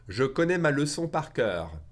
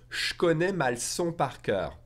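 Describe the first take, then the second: First: It is said slowly with every sound kept. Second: It is said fast with 'je connais' as 'shk'.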